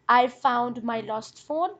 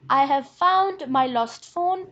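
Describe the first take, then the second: First: The word 'have' is contracted and weak. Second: The word 'have' is full and stressed. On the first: "I've in the second sentence is weak" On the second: "Have is stressed"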